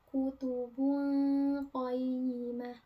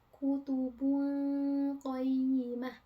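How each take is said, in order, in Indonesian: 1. Bunyi n menyatu menjadi dengung sengau. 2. Bunyi n menyatu menjadi dengung sengau.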